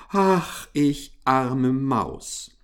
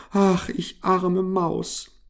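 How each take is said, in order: First: Lamenting. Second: Slow, high wailing little mouse; drawn-out whimpering complaint; lamenting. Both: A narrator's reading. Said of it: "klagte sie".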